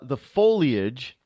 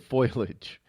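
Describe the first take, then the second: First: The first syllable sounds like 'foal'. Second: The first syllable sounds like 'foil'. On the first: The speaker calls it right. "Did I say that right this time?" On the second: The speaker calls it wrong. "I always say foliage. ... Foil?"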